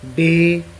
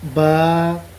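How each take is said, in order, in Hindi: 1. अक्षर के नाम का अंत 'e' स्वर से होता है। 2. अक्षर के नाम का अंत खुले 'a' स्वर से होता है। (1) "उर्दू की हरूफ तहजी जब पढ़ते हैं ... हम इस तरह जो है हरूफ को अदा करते हैं" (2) "कुरान पाक के जो हरूफ हैं ... इनका अंदाज़ वो उर्दू से बहुत ज़्यादा मुख्तलिफ है"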